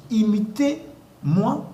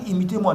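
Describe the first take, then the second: First: "imitez-moi" stretched very slowly, higher, tune rising at the end; slow drawn-out imitez-moi. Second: Said in the usual way. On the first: Shown as a demonstration. Pastor correcting the congregation, slowly stressing "imitez-moi". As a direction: draw out every syllable of "imitez-moi" and lift it. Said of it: "Non, il a dit". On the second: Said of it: "Paul n'a pas dit".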